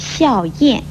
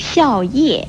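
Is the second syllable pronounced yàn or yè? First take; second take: yàn; yè. First: The second syllable is pronounced yàn. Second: The second syllable is pronounced yè. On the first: The speaker calls it wrong. "不要念成了笑燕" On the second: The speaker calls it right. "如笑叶不要念成了"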